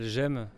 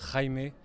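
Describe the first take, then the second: First: The name is said the French way. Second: The name is said the Spanish way. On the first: "moi je m'appelle Jem" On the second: "en espagnol ça se prononce Jaime"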